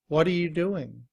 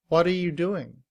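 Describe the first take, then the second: First: The word 'are' is reduced to 'uh'. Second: The same.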